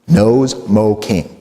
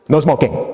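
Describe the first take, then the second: First: It is said slowly, as three separate words. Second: It is said fast, as one phrase.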